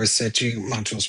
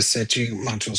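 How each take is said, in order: First: The name is said with Portuguese sounds. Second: The name is said with Portuguese sounds.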